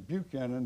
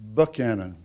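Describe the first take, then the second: First: The name is said the common way. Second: The name is said the Georgia way. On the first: This is how most people say the name. "everybody calls him Buchanan" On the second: This is how the name is said in his home state. "The reason I pronounced the name that way, ... they call it Buchanan over there"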